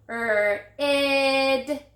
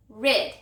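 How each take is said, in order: First: 'Er, id' drawn out sound by sound; stretched word. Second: Said in the usual way. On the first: Shown as a demonstration. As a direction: stretch rid as a long 'Er', then a long held 'id'.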